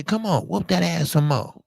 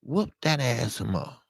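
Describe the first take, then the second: First: Cocky taunt, pitched up; daring him to hit harder; mock taunt. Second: Tossing the dare off quietly; quieter taunt. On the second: Retold or imitated. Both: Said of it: "I'm gonna say".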